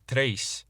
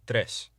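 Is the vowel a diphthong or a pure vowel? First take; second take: diphthong; pure vowel. First: The vowel glides like an English diphthong. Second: The vowel is short and pure, without gliding. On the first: The speaker calls it wrong. "rather than tres" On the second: The speaker calls it right. "say tres"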